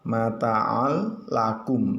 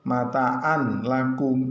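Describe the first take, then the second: First: The n merges into the l sound. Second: The n is kept before the l. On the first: The speaker calls it right. "Yang betul bagaimana? Mata'al lakum. Nah, seperti itu" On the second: The speaker calls it wrong. "Tidak boleh membaca dengan kalimat mataan lakum. Nah, itu salah"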